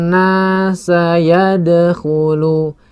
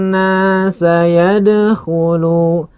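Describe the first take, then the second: The two takes are said the same way.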